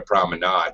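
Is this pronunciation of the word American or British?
British. It is said the British way, without that A. "British might call it a promenade"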